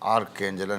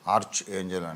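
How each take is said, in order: First: Arch ends with a k sound. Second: Arch ends with a ch sound. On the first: This is the speaker's personal usage. "ఆర్క్ ఏంజల్ అంటాను నేను" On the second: This is how people usually say it. "ఆర్చ్ ఏంజల్ అంటారు"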